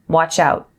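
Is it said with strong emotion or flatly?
flat. It is said flatly, without emotion.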